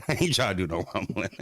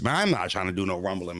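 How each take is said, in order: First: Laughing through the words "ain't trying". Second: Said in the usual way. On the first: Real, not acted. Streamer laughing to chat about the fight. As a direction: say it while cracking up.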